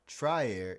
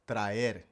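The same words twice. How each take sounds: First: The first syllable sounds like 'try'. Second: The first syllable sounds like 'tra'. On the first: The speaker calls it wrong. "it's not try" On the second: The speaker calls it right. "it's tra"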